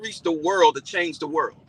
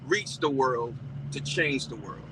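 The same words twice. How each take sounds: First: The phrase is spoken at a normal, quicker pace. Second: The phrase is spoken at a slower, deliberate pace.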